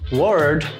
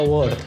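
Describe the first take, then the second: First: It is said in an American accent. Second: It is said in a Scottish accent. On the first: "o americano falando" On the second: "o escocês fala"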